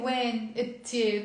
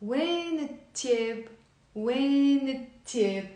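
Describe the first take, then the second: First: "When" and "it here" said as separate words; unlinked. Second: Slow, stretched "When" flowing into "it"; linked with liaison. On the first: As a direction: keep "When" apart from "it here", slowly. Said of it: "So I'm not gonna say". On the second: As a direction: join "When it" into one word, slowly. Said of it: "it's much nicer if you say". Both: Shown as a demonstration.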